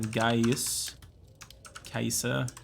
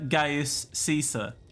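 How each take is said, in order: First: The name is said the original Latin way. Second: The name is said the usual English way. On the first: "which is actually the way it's pronounced" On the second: "but I'm not going to pronounce it that way"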